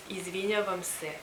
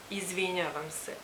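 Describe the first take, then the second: No difference in how they are said.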